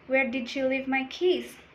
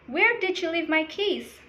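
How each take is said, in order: First: It is spoken at a lower, calmer pitch. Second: It is spoken at a higher, agitated pitch. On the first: The speaker is calm. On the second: The speaker is aroused or upset.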